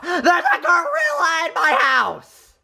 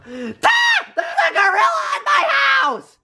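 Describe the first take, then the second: First: Half-laughed, mock-scared report; laughing while retelling the scare. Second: High, panicked shriek at the gorilla; shrieking in terror; terrified scream. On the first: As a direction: giggle through the warning. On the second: Acted. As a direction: scream it in pure fright. Carl sees the gorilla.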